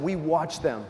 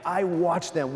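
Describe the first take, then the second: First: We watched them with the weight on We; stress on We. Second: I watched them with the weight on I; stress on I. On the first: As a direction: correct yourself by hitting We. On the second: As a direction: lean on I before correcting. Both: Shown as a demonstration.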